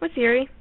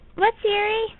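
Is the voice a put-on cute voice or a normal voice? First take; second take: normal; cute. First: It is said in an ordinary speaking voice. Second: It is said in a put-on cute voice. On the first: "My normal voice" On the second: "That's my cute voice"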